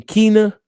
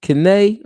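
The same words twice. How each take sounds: First: "Keena" said as KEE-nuh, first syllable stressed; testing "Keena" aloud as KEE-nuh, unsure; trying the name. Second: "Kene" said as kuh-NAY, rising like a question; testing "Kene" as kuh-NAY with a questioning rise; trying the name. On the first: Asking the chat how to say the guest's name, "Keena" as KEE-nuh. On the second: Asking the chat how to say the guest's name, "Kene" as kuh-NAY. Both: Shown as a demonstration. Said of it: "how you say his name?".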